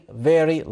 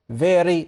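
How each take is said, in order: The two takes are said the same way.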